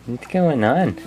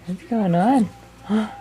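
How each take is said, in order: First: Said in the usual way. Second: Much higher sing-song question, rising at the end; high cooing question; higher baby talk. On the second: Shown as a demonstration.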